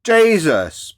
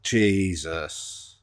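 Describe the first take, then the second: First: Jesus thrown out loud and high, falling; an exasperated loud cry of Jesus. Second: Said in the usual way. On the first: Real, not acted. Ranting at the guest, a loud exasperated Jesus.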